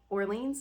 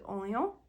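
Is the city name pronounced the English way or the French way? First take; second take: English; French. First: The name is pronounced the English way. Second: The name is pronounced the French way. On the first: "it's how we pronounce it" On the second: "in French it's something similar to Orléans"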